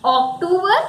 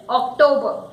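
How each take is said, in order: First: OCTOBER as ok-TOO-ber, higher and questioning; wrong pronunciation. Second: OCTOBER as ok-TOE-buh, falling; correct pronunciation. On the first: Teacher testing learners with the wrong pronunciation. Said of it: "October is said in Hindi". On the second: Teacher correcting learners, correct pronunciation. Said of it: "No, it is October". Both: Shown as a demonstration.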